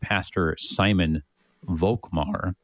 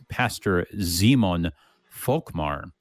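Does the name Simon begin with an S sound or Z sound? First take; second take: S sound; Z sound. First: Simon begins with a hissing S sound. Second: Simon begins with a buzzing Z sound. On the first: The speaker calls it wrong. "you would say" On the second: The speaker calls it right. "but really, it's"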